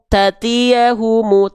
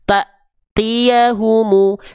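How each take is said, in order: First: The first syllable flows smoothly into the next. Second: The first syllable is cut off with a stop. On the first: The speaker calls it wrong. "Nggak akan kita baca gini kan?" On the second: The speaker calls it right. "tapi ta-nya akan terhentak"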